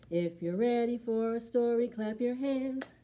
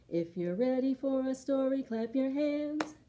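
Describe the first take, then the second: No difference in how they are said.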